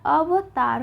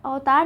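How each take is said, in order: First: अवतार in three drawn-out beats; a clear va inside अवतार; correct separate v. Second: अवतार in two beats, opened on au; the mistaken autaar for अवतार; wrong merged vowel. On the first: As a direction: slowly say अवतार as a-va-taar. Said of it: "अवतार होता है". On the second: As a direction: say अवतार as au-taar. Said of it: "अवतार नहीं होता है". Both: Shown as a demonstration.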